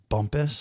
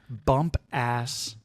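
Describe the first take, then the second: First: The second syllable is a reduced 'us' sound. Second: The second syllable sounds like the word 'ass'. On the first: The speaker calls it right. "I'm sure it's pronounced Bumpus" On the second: The speaker calls it wrong. "It looks like it's pronounced"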